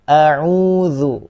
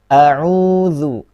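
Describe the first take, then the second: First: The opening vowel is kept short. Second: The same.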